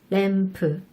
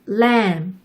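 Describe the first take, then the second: First: It ends with an extra vowel after p. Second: It ends on a bare p with no vowel. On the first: "맨 마지막에 으 라는 모음을 넣어주어야" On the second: "맨 마지막에 P의 소리가 모음 없이 단독으로 소리가 나요"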